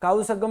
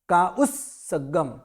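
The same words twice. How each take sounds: First: काउ सगम with a single स, split wrongly; काउ सगम as the common mistake. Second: का उस सगम with a double स; उस and सगम split to show double स; careful का उस सगम; correct way. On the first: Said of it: "काउ सगम नहीं बोलना है". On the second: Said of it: "double स बोलना है". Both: Shown as a demonstration.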